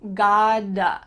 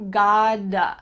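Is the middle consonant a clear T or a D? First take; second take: D; D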